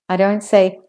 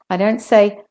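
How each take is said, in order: Both takes have the same delivery.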